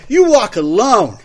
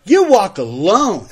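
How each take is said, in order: First: Put-on loud, high drunken sneer; belligerent drunk. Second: Put-on slower, loud drunken repeat; belligerent drunk. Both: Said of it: "That was my drunk Fred".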